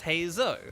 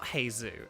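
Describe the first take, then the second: First: The name ends with an "oh" vowel. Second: The name ends with an "oo" vowel. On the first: The speaker calls it right. "it's like O" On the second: The speaker calls it wrong. "But it's not Hazu"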